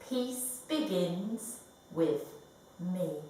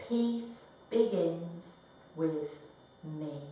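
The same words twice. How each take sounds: No difference in how they are said.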